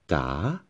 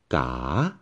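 First: The pitch dips down then rises. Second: The same.

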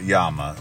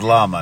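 First: The word is said with a Spanish pronunciation. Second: The word is said with an English pronunciation. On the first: The speaker calls it wrong. "not llama. So in case you're from Spain" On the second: The speaker calls it right. "it's llama"

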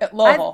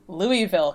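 First: The name is said with reduced, merged syllables. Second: The name is said with full, separate syllables. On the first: The speaker calls it right. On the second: The speaker calls it wrong.

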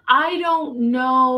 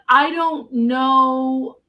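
First: It is said in an alarmed, urgent way. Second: It is said in a calm, matter-of-fact way.

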